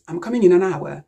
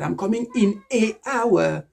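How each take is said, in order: First: "an hour" linked as "anour"; assimilated article. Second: "an" turned into a separate "ay" before "hour"; wrong article demo. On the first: Teacher showing assimilation, "an hour" linked as one word. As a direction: run the N of "an" straight into "hour". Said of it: "it can easily be assimilated". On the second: Teacher showing the mistake, "an" said as an unlinked "ay". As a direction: say "ay, hour" for "an hour", no linking. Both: Shown as a demonstration.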